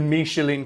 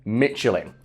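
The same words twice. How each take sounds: First: The name is said in a posher-sounding way. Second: The name is said in a plain, everyday way. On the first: It refers to the restaurant guide. "It's like to make it sound more posh" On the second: It refers to the tyre company. "whenever I hear someone refer to Michelin in regards to tyres, they always say Michelin"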